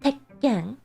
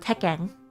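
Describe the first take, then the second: First: A short stop splits the word before 'ken'. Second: The word runs on with no pause inside. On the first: The speaker calls it right. "The correct pronunciation of this word would be Tekken" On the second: The speaker calls it wrong. "some of you might see this word and go"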